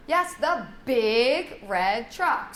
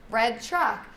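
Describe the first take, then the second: First: BIG drawn out long and slow; stress on BIG. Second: Said in the usual way. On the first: Shown as a demonstration. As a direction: stretch BIG to make the new word stand out. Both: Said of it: "highlight the new word with".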